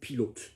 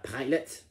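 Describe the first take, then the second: First: It is said with a French pronunciation. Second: It is said with a Scottish accent. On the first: The pronunciation falls outside the understandable range. The speaker calls it wrong. "French people in, in a test, they will say pilote" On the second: The pronunciation stays within the understandable range. The speaker calls it right. "a Scottish person might say a pilot"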